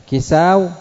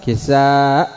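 First: كساو higher, ending in w; original waw form. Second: كساء with long aa cut by glottal stop; final hamza. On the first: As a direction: end كساو on a waw glide. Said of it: "بدل الواو". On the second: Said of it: "الهمزة بدل ماذا". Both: Shown as a demonstration.

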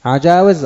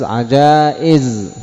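First: عجاوز pitched up, with a w; original waw form. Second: عجائز slow, long aa then glottal stop; hamza replacing waw. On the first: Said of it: "الواو". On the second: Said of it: "الهمزة بدل". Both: Shown as a demonstration.

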